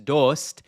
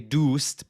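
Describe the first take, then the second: First: It is said in an Eastern Persian accent. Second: It is said in the speaker's own Persian accent.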